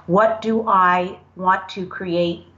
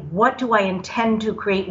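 First: Said in the usual way. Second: Corrected wording, intend stressed; measured self-correction with intend. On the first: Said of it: "I don't wanna take the word want". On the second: Shown as a demonstration. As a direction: lean on intend as the better word. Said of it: "what I desire to say".

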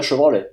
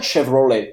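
First: Chevrolet said the French way; French pronunciation. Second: Chevrolet said the American way; English pronunciation. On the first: Car expert showing the usual Quebec form, French pronunciation. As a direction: say Chevrolet as French "cheu-vro-lè". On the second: Car expert showing what nobody says, English pronunciation. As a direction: say Chevrolet as English "Shev-ro-lay". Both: Shown as a demonstration. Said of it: "l'accent anglais ou français".

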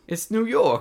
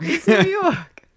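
First: High, loud mock New Yorker; New York accent. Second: High, slow hammed-up New York drawl; New York accent. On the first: Joking about becoming a New York person, high hammed-up New York accent. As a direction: belt it like a brash New Yorker. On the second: Admitting she can't stop talking New York, slow high New York accent. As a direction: stretch it out like a brash New Yorker. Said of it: "cannot stop talking with a New York accent".

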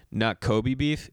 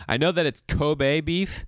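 First: Kobe said "koh-bee", slowly; wrong Kobe. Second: Kobe said "koh-bay"; correct Kobe. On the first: Comic showing the audience the wrong way, "koh-bee". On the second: Comic correcting the audience, Kobe as "koh-bay". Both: Shown as a demonstration.

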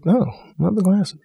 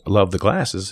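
First: Higher and slow, meaning the compliment; actor's audition read, turning the line from negative to genuinely admiring; sincere positive read. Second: Said in the usual way. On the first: Retold or imitated. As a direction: say love the glasses as a real compliment, lifted high and slow. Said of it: "So I said". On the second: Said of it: "it doesn't have to be negative".

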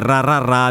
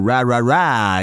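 First: "ra ra ra" with a rolled Italian R. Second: "ra ra ra" with an English R; untrilled Anglo R in "ra ra ra"; English-accented R. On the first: Showing listeners why humming on R is harder, Italian rolled R. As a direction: trill each R in "ra ra ra". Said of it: "a meno che non sia una R con la pronuncia ad esempio anglo". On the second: Showing listeners the easier version, English-accented R. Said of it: "una R con la pronuncia ad esempio anglo". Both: Shown as a demonstration.

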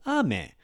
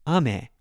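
First: "ame" falling from high "a" to low "me"; high-low pitch accent. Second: "ame" rising from low "a" to high "me"; low-high pitch accent. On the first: Teacher gives word for rain, "ame" high then low. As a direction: start "ame" high and drop the second syllable. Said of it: "It's higher than lower". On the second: Teacher gives word for candy, "ame" low then high. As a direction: start "ame" low and lift the second syllable. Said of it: "lower, higher". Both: Shown as a demonstration.

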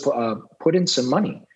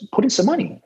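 First: Said in the usual way. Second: Higher, pressing the request again; mock-exasperated sponsor pressing for money; insistent repeat. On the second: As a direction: push it up, losing patience.

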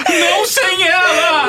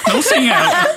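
First: High, loud, very slow sobbing shout; crying shout. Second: High, louder melodramatic cry; dramatic cry. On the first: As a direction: drag it out in hammed-up tears. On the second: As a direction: wail it like a movie farewell. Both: Retold or imitated. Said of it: "falou assim".

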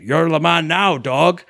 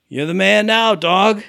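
First: Imitated Scottish movie-star accent; Sean Connery. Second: Higher-pitched imitation without the Scottish accent; Fiona. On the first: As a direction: put on a Scottish accent, loosely impersonating. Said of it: "say it in a Sean Connery accent". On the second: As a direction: mimic her saying the quote, higher and drawn evenly. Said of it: "She says it like".

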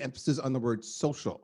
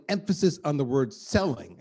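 First: Social leaned on as the key word; stress on social. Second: Selling leaned on as the key word; stress on selling. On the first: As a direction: put the weight on "social". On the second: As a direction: put the weight on "selling". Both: Shown as a demonstration.

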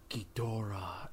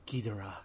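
First: Low, soft, lingering imitation of the dubbed line; hushed, ominous drawn-out name; English dub imitation. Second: Soft, low imitation of the dubbed line; Japanese dub imitation. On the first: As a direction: let the name hang in the air. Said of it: "the way it's said in English". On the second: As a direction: say the name quietly and simply. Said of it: "in the Japanese dub, it's fine".

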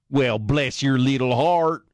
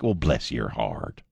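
First: Slow, higher mock Southern drawl; Southern accent. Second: Low, slow Southern bless-your-heart drawl; slow Southern accent. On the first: Host mocking the woke crowd, slow Southern drawl. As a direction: pour on the syrupy Southern bless-your-heart. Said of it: "slow ... Southern accent". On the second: Retold or imitated. Host demonstrating a Southern dressing-down, slow Southern drawl. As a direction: drawl it out Southern, every syllable. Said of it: "slow, gonna pronounce every freaking syllable Southern accent".

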